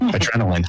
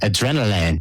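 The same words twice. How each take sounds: First: It is said with an attempted French accent. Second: It is said with a plain English accent.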